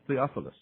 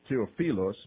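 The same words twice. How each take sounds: First: The name is said in a local English pronunciation. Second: The name is said in a Greek-style pronunciation. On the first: "I have to say it like you guys would say it here" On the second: "Really, it's Theophilus, but I couldn't say it that way"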